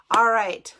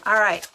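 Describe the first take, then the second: First: A sudden loud "All right" that falls at the end; loud call. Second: A loud, punchy "All right" that drops at the end; loud call. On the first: Host calling viewers back, loud "All right". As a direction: call the room back to order. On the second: Host moving chat along, loud "All right". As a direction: announce the next bit loudly. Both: Real, not acted.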